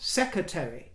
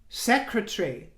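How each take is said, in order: First: The syllables of the word come out garbled. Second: Every syllable of the word is said cleanly. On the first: The speaker calls it wrong. "Not secretary" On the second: The speaker calls it right. "it's Secretary, my dear"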